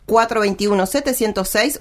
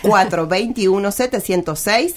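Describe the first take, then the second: First: The number is read at a fast pace. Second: The number is read at a slow pace. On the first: "todos me dicen que hablo muy rápido" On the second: "lo voy a hacer más despacio"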